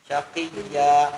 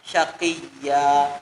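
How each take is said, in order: No difference in how they are said.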